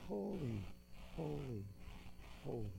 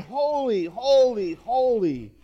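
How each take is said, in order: First: Very soft, spaced-out "holy" three times; hushed echo of the angels' praise; hushed reverence. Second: Drawn-out, ringing "holy" three times; calling out. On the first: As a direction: let each "holy" drop away quietly. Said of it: "the angels sang". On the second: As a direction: call out each "holy" with solemn emphasis. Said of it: "one called out to another". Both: A narrator's reading.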